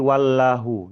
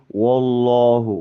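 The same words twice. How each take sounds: First: Both syllables are thin, with a plain light lam. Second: The first syllable is darkened to wo, all heavy. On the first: "Kalau misalkan yang tipisnya dominan nanti jadi wallahu nanti seperti itu, seperti huruf lam biasa" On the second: "yang dominan adalah tebal itu ... huruf wa itu jadi huruf wo"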